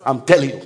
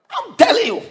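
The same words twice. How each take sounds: First: Said in the usual way. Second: Jumps much higher on telling; emphatic repeat. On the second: Shown as a demonstration. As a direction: drive it home.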